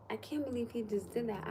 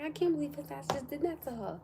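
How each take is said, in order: First: Disbelieving, without pushing it; mild retold disbelief. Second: High-pitched, indignant disbelief; retold outraged disbelief. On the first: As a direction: quote it in restrained disbelief. Retold disbelief, first milder take. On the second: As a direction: replay your shocked reaction, pitched up. Her own outraged reaction, retold.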